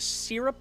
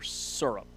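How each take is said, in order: First: Syrup said as SIRR-up; first syllable of syrup with a short "ih" vowel; "sirr-up" pronunciation. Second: Syrup said as SUR-up; first syllable of syrup rhymes with "fur"; "sur-up" pronunciation. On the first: Asking which syrup is right, "sirr-up" pronunciation. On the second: Asking which syrup is right, "sur-up" pronunciation. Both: Shown as a demonstration. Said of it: "is it syrup or syrup?".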